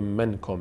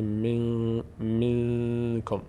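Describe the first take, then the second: First: The n is said clearly with the tongue. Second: The n is nasal, hidden and briefly held. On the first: The speaker calls it wrong. "نمیگه منکم" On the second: The speaker calls it right. "میگه من منکم"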